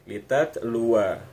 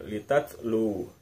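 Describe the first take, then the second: First: The final waw carries a short vowel. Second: The final waw ends with no vowel. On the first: The reading continues into the next word. "waw yang dibaca pendek" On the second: The reader stops at this word. "itu cara baca sukunnya"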